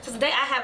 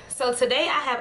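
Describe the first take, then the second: First: The phrase is spoken at a fast pace. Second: The phrase is spoken at a slower pace. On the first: The speaker calls it wrong. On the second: The speaker calls it right.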